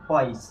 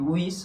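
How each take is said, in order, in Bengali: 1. স্বরধ্বনিটি 'eye' ধ্বনি। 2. স্বরধ্বনিটি ছোট 'i' ধ্বনি। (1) "আই উচ্চারণ হবে" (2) "সচরাচর আমরা উচ্চারণ করি কি উইস, হবে না"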